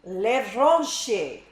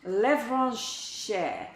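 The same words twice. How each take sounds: First: Levranche said the French way, lev-RAHNSH-ay, loud and falling; a first stab at a French accent on Levranche; viewer's request, say Levranche in a mock French accent; fake French accent. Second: Another careful go at Levranche in French; retry for the viewer, a fake French accent on Levranche. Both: Shown as a demonstration. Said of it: "Pronounce my name in a fake French accent".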